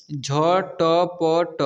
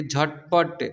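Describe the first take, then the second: First: झटपट very slow, each letter separate; झटपट broken into drawn-out letters; spelled out letter by letter. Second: Said in the usual way. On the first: Shown as a demonstration. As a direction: sound out झटपट one long letter at a time. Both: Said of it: "इसे पढ़ेंगे".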